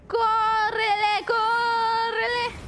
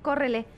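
First: Very slow, stretched wailed call; long held-out urgent wail; drawn-out urgent cry. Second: Said in the usual way. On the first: Real, not acted. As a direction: wail it, stretching each word out. Urging escape, drawn out.

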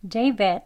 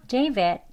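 The two takes are said the same way.

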